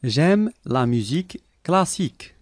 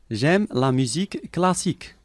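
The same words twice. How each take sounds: The two takes are said the same way.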